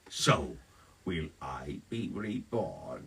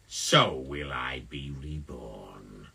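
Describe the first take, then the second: First: There is a longer pause after "so". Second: There is only a short pause after "so". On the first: The speaker calls it wrong. "Less pause after the so" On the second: The speaker calls it right. "There we go"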